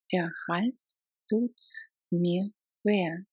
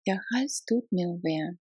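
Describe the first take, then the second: First: "Der Hals tut" then "mir weh" in two parts; chunked repeat. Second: Said in the usual way. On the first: Shown as a demonstration. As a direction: split it for learners.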